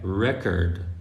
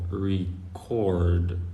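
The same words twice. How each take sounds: First: The stress is on the first syllable. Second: The stress is on the second syllable. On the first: "if you put the stress on, on the e" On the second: "So the stress is on the o"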